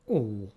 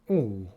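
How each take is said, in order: First: The vowel is held for a long time. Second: The same.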